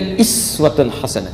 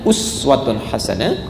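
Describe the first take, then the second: First: The first word starts with an 'i' vowel. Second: The first word starts with an 'u' vowel. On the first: This is the reading of another recitation tradition. "Ini bisa juga iswatun hasanah" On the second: This is the reading of one recitation tradition. "Kata uswa dalam riwayat Hafs dari Asim"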